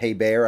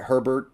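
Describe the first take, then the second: First: The name ends with a 'bear' sound. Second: The name ends with a 'bert' sound. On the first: The speaker calls it right. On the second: The speaker calls it wrong.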